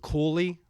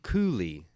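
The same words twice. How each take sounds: First: The L sound in the middle is brought out. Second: The opening coo sound is brought out. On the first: Other people say the name this way. "Some people pronounce it Cooley with the L" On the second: The family says the name this way. "We pronounce it Cooley with the coo"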